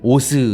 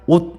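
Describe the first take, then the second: First: The final consonant is released with a vowel. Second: The final consonant is held without release. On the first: The speaker calls it wrong. "우리 발음할 때 뭐 오스 이렇게 발음하나요? 안 하죠?" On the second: The speaker calls it right. "딱 옷 이렇게 발음합니다"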